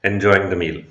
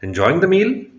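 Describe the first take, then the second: First: The voice falls at the end, a statement. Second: The voice rises at the end, a question.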